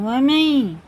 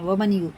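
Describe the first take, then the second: First: The n merges into a nasalized following sound. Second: The n is pronounced clearly before the next sound. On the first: The speaker calls it right. "ये वमई गुन्ना करेंगे" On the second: The speaker calls it wrong. "वमन यू नहीं पढ़ेंगे"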